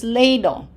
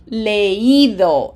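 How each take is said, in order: First: Leído said wrongly as LEI-do, like "lay-do"; leído with the I swallowed into a stressed E; diphthong, stress on E. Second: Leído as le-Í-do, loud stretched I; leído in three syllables, stress on Í; accented, separate I. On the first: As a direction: run E and I together in leído as one syllable. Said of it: "That says". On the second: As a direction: split E from I in leído and punch the I. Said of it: "What is it supposed to sound like?". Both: Shown as a demonstration.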